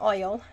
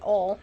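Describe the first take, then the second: First: Oil is said in a standard accent. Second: Oil is said in a Southern accent. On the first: This is how people elsewhere say it. "not oil" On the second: This is how the speaker's region says it. "I say oil"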